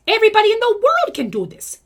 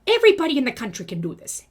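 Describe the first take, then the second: First: Much higher and louder, a big rousing push; rising rallying cry. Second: Said in the usual way. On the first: Acted. Rallying MLM reps to comment, much higher and louder. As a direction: lift it up high and loud like a battle cry. Builds to a bigger claim.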